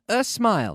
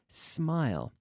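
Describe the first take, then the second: First: A vowel sound is added before the s. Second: The word begins directly with the s sound. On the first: The speaker calls it wrong. "it's not a smile. No, no, no" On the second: The speaker calls it right. "this word begins with the S. Consonant"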